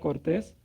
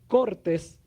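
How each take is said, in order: First: The stress is on the last syllable. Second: The stress is on the first syllable. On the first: It describes a polite person. "cortés puede ser una persona que es educada" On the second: It refers to cuts, from cutting. "¿cortes de qué? De cortar"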